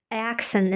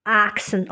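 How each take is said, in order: First: Said in the usual way. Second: "accent" starting with an open "ah"; British vowel. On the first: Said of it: "the word accent in British accent". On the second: Shown as a demonstration. Showing British speech, "accent" said as "ahk-sent". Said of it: "British accent is".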